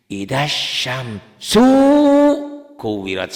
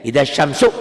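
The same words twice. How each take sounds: First: Idza syamsu drawn out slowly, the vowels held too long; beginner's wrong reading. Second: Idza syamsu said crisply, ending sharply; clean cut-off reading. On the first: Teacher imitating how a beginner wrongly drags syamsu. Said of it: "pemula suka begini". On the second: Teacher showing to just stop after syamsu. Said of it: "putusin aja". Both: Shown as a demonstration.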